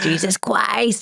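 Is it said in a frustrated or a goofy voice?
goofy. It is said in a playful, goofy child's voice.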